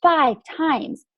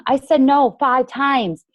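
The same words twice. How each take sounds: First: "five times" repeated much higher, with a push on "five"; higher emphatic repeat. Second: "five times" slow and weighty, each word pressed; emphatic and slow. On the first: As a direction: repeat "five times" high, as if you still can't believe it. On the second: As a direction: let "five times" land slowly and heavily to convince the team. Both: Real, not acted. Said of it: "that's why I always tell my team".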